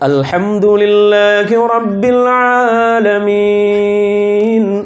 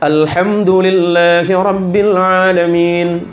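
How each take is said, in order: First: It is recited slowly with a flowing melody. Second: It is recited at a somewhat quicker pace. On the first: "Kalau tartil itu kan mengalun, bacaannya lebih lambat" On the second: "Yang tadwir itu agak lebih cepat sedikit"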